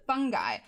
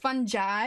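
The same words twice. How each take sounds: First: The g is a hard g sound. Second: The g is a soft j sound. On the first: "I've always called it fungi" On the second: "it should be spelled with a J, not a G"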